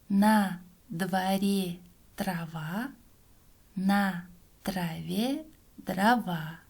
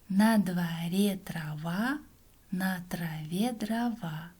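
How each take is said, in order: First: The phrase is spoken slowly. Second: The phrase is spoken somewhat faster. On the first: "Сначала читаем медленно" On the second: "А теперь немного быстрее"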